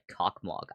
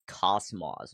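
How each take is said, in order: First: It is said with k and g sounds, like cockmog. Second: It is said with s sounds, like cosmos. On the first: The letters are read as if they were Latin letters. "Cockmog just sounds so much funnier" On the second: It is read as the Russian word. "as like a native Russian speaker to actually pronounce it like Cosmos"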